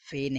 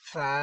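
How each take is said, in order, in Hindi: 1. नाम 'e' स्वर पर खत्म होता है। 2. नाम 'a' स्वर पर खत्म होता है। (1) "फे नहीं पढ़ेंगे" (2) "बल्कि फा फा फा"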